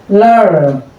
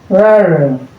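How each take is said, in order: No difference in how they are said.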